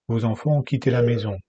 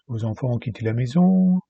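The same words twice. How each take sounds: First: The pitch drops at the end of the phrase. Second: The pitch stays up at the end of the phrase. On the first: The speaker has finished the statement. The speaker calls it wrong. "He doesn't say" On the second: More items in the list are coming. The speaker calls it right. "He doesn't drop in his tone"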